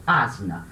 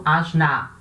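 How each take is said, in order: First: Asna stressed on the first syllable, "ASna", slow and clear; correct stress. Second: Asna stressed on the last syllable, "asNAA", final a drawn out; wrong stress. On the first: Teacher models correct asna to class, ASna slowly. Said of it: "Falo asna". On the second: Teacher demonstrates the wrong stress on asna, asNAA. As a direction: lean on the end of asna and stretch it. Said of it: "Eu não falo asna". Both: Shown as a demonstration.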